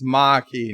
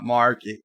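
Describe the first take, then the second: First: Marquis as R-less "mah-kee"; no R at all in Marquis; R dropped. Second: Marquis with an R, "mar-kee"; R sounded. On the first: Host quotes the correction, Marquis as "mah-kee". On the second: Host quotes the rejected way, Marquis as "mar-kee". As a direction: keep the R in Marquis. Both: Shown as a demonstration. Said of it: "not Marquis".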